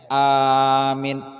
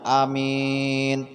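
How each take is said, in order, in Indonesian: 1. Vokal pertama panjang, yang kedua pendek. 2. Vokal pertama pendek, yang kedua panjang. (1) "Panjang awalnya, pendek akhirnya" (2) "Pendek awalnya, akhirnya panjang"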